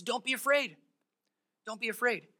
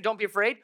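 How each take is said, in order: First: Soft grounded reassurance; calm reassurance. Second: Said in the usual way. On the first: Acted. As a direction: settle the servant down gently. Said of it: "Elisha keeps him grounded". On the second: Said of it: "instead of saying".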